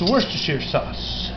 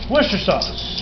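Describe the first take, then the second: First: The name is said in its full long form. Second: The name is said in a short clipped form.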